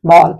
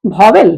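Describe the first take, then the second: First: वॉल said as one short syllable, like "vaal"; the pure form: वॉल, single syllable, no second vowel; वॉल clipped to one beat, vaal. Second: वॉवेल said in two syllables, like "vaa-vel"; the older way: वॉवेल with a clear second syllable; वॉवेल spoken as two beats, vaa-vel; two-syllable vowel. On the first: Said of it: "उसका शुद्ध उच्चारण वॉल है". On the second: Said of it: "पहले हम भी उसको वॉवेल ही बोलते थे". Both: Shown as a demonstration.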